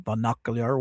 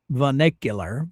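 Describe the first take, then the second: First: "vernacular" fumbled as ver-NOCK-uh-lee-ur; alternative garbled pronunciation. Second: "vernacular" as ver-NECK-yuh-lur; first pronunciation attempt. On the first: Streamer unsure of a word, "vernacular" garbled as ver-NOCK-uh-lee-ur. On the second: Streamer trying out a word for viewers, "vernacular" as ver-NECK-yuh-lur. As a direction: say "vernacular" with an "eh" in the stressed syllable. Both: Shown as a demonstration. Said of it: "whatever you wanna pronounce it".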